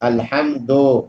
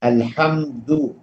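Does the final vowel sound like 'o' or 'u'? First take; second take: o; u. First: The final vowel is an o sound. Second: The final vowel is a clear u sound. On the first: The speaker calls it wrong. "ओ की तरह ना कहें" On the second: The speaker calls it right. "पेश बू है"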